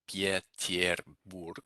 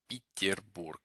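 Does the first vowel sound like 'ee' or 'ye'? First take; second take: ye; ee. First: The first vowel is a full 'ye' sound. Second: The first vowel is a reduced 'ee' sound. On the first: The speaker calls it wrong. "it's not actually, as you might assume" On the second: The speaker calls it right. "these yes get reduced to an e"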